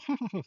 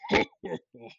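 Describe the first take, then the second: First: The laugh is light and quick. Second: The laugh is deep, slow and bellowing. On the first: "he doesn't like go ha ha ha" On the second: "like a big, deep, bellowing, malevolent laugh"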